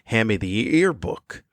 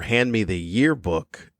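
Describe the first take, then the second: First: Yearbook begins without a Y, like 'ear'. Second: Yearbook begins with a clear Y sound. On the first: "they wouldn't pronounce the Y in year, so it would just be ear" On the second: "I'm saying it correctly"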